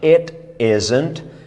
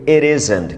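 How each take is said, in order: First: Said slowly, the t is a clear t. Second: Said fast, the t becomes a soft flap. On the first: "falando pausadamente" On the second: "dito em velocidade, se fala ere"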